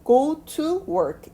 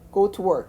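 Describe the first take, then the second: First: The final k is released clearly like 'keu'. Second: The final k is faint and barely released. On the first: The speaker calls it wrong. "이렇게 읽는 것이 아니라" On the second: The speaker calls it right. "흐릿하게 남아있는 발음으로 해달라는 의미예요"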